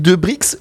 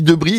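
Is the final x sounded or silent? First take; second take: sounded; silent. First: The final x is sounded. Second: The final x is silent. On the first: The speaker calls it right. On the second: The speaker calls it wrong.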